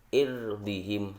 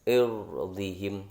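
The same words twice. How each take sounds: First: The r is pronounced light and clear. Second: The r is pronounced heavy and full. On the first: "saya baca tipis" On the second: "saya baca tebal"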